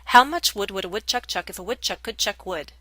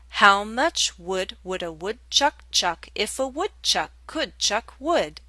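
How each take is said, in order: First: It is said at a very fast pace. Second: It is said faster than the previous pace.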